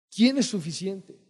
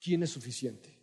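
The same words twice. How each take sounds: First: Higher, louder, slower ¿Quién es suficiente? with a rising ¿Quién; emphatic repeat. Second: Said in the usual way. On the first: Acted. Preacher pressing the congregation, repeating ¿Quién es suficiente? louder and higher. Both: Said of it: "Y para esto".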